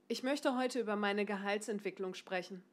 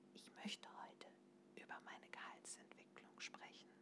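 First: It is spoken loudly with a stable tone. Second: It is spoken very quietly, almost whispered. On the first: "8. Hörbar lauter" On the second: "auf die 1. Ganz klein, ganz leise"

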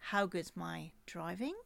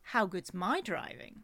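First: The stress falls on the word driving. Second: The stress falls on the word my.

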